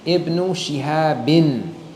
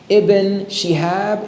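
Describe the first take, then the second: First: The name ends with an added -in ending. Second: The name ends with no added ending. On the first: The speaker calls it right. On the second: The speaker calls it wrong.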